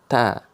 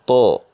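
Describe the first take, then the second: First: The sound is thin and light. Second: The sound is heavy and dark. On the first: "Kalau ta itu tipis" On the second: "setiap yang isti'la itu adalah tebal, maka bacaan ta itu seperti gini"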